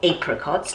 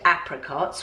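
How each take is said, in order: First: The word is said with a British pronunciation. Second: The word is said with an American pronunciation. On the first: "depending on whether you're in America or England" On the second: "depending on whether you're in America or England"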